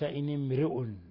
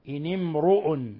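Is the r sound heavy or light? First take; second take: light; heavy. First: The r sound is light and thin. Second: The r sound is heavy and full. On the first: The speaker calls it wrong. "وليس" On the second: The speaker calls it right. "أبقينا الراء مفخمة"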